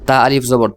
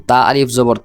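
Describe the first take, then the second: No difference in how they are said.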